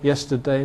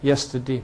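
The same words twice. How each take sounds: First: The ending has the modern pronunciation. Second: The ending has the old-fashioned pronunciation. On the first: "Probably I say Monday, yesterday now" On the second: "a lot of people in, in England still say"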